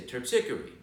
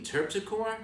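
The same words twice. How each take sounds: First: Terpsichore said as terp-SICK-er-ee; correct Greek pronunciation. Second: Terpsichore said as TERP-si-core, questioning; other local pronunciation. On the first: Guide telling the mayor his street, Terpsichore as terp-SICK-er-ee. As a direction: stress the second syllable of Terpsichore, terp-SICK-er-ee. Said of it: "which is the correct way". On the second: Guide retelling the mayor's correction, Terpsichore as TERP-si-core. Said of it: "you do hear it both ways". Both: Retold or imitated.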